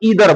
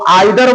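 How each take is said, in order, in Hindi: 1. यह शब्द का अमेरिकन उच्चारण है। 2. यह शब्द का ब्रिटिश उच्चारण है। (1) "अमेरिकन इंग्लिश बोल रहे हो तो ईदर बोलोगे" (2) "अगर ब्रिटिश इंग्लिश बोल रहे हो तो आइदर बोलोगे"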